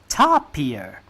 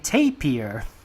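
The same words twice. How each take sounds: First: It is said with a Malaysian pronunciation. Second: It is said with a Singaporean pronunciation. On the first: "in Malaysia, almost everybody refers to it as a tapir" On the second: "somewhere in Singapore, they say tapir"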